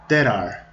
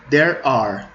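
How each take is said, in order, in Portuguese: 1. As palavras são ditas mais rápido, juntas como uma só. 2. As palavras são ditas mais devagar e separadas.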